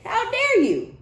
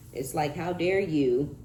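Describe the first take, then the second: First: Much higher and louder, mock indignant; hammed-up outraged squeal; outraged how dare you. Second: Said in the usual way. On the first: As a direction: shriek it like an offended ex. Voicing the offended jealous ex.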